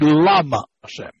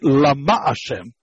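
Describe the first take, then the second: First: The stress is on the first syllable of lama. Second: The stress is on the second syllable of lama. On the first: The speaker calls it wrong. "it should be Lama Hashem. We don't say that" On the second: The speaker calls it right. "meaning the emphasis in the second syllable"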